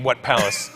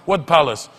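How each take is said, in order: First: Incredulous echo. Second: Lightly voiced interrogator. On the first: Retold or imitated. Comic throwing the interrogator's question back, mildly incredulous. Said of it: "what do you mean". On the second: Interrogator questioning the comic about last night, mildly demanding. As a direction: question it like an official interrogating a suspect. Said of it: "So he starts interrogating me".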